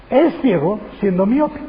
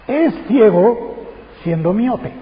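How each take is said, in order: First: Said in the usual way. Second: "Es ciego" drawn out slowly, rising; preacher savoring the Greek phrasing, slow and emphatic; slow emphatic quote. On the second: Shown as a demonstration. Preacher to congregation, stretching the Greek phrase slowly. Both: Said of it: "El griego lo dice de esta forma".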